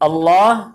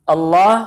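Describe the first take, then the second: No difference in how they are said.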